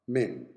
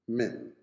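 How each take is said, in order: The two takes are said the same way.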